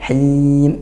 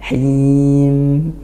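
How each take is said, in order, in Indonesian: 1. Bunyi m di akhir ditahan dan dipotong pendek. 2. Bunyi m di akhir mengalir lancar tanpa dipotong. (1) "bukan him, nah itu tertahan dia" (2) "nah seperti itu"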